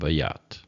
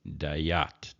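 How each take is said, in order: First: The first vowel is a plain short a. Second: The first vowel is lengthened into ai. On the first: The speaker calls it wrong. "I pronounce this as va, which is what it looks like, and this is ya" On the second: The speaker calls it right. "lengthens it into dai ... would be the more correct pronunciation"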